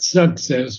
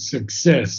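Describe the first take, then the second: First: The stress is on the first syllable. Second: The stress is on the second syllable. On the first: The speaker calls it wrong. "not success" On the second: The speaker calls it right. "but success on the second point"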